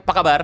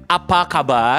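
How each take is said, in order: First: "Apa kabar" run together as pakabar; shortened form. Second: "Apa kabar" in full, opening a clearly sounded; formal full form. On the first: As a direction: say "Apa kabar" short and low, swallowing the first a. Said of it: "we make it short". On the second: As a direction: say "Apa kabar" unhurried with every syllable. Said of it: "for formal way, we call it". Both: Shown as a demonstration.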